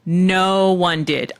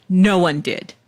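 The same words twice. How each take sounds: First: "No one did" stretched out slowly, leaning on "No"; emphatic repeat. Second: Said in the usual way. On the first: Real, not acted. Host confessing nobody requested it, slow emphatic "No one did". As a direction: draw out "No" and admit it slowly.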